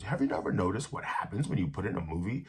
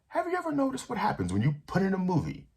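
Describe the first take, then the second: First: The stress is on happens. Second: The stress is on put.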